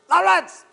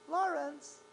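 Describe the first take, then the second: First: The name is called in an angry, scary tone. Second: The name is called calmly.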